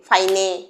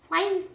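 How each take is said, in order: First: An extra vowel is added after the n. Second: The word ends on the n sound. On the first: The speaker calls it wrong. "ইয়ের জন্য এ এরকম কিছু লাগিয়েছিস" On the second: The speaker calls it right. "কেন ফাইন হচ্ছে দেখছো তো?"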